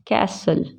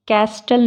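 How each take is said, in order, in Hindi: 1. t की आवाज़ silent है। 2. t की आवाज़ बोली जाती है। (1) "इसको क्या बोलते हैं?" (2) "कैस्टल नहीं पढ़ते"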